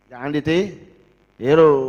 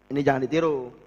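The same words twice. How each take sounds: First: Ditiru drawn out long and louder; slow and stretch ditiru as a warning; stress on ditiru. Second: Said in the usual way. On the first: Shown as a demonstration.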